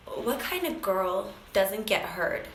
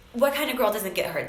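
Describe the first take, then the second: First: Slow, choked up quote; emotional. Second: Said in the usual way. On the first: Real, not acted. Coach asks a painful question on the phone, retold slowly and emotionally. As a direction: say it slowly, holding back emotion. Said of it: "Sorry, I get a little emotional".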